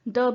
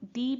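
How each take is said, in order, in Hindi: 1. यह स्वर एक छोटी, रिड्यूस्ड 'uh' ध्वनि है। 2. यह स्वर एक लंबी, पूरी 'ee' ध्वनि है।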